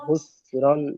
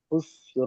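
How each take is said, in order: First: The word ends with an n sound. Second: The word ends without an n sound. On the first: The reading continues past this word. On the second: The reader stops at this word.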